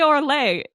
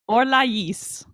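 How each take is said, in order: First: The final S is silent. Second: The final S is clearly sounded. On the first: "They don't say Orlais" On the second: "they pronounce the S"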